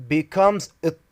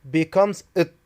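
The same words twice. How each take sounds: The two takes are said the same way.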